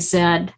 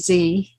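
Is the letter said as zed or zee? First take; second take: zed; zee. First: The letter is said as zed, British style. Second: The letter is said as zee, American style.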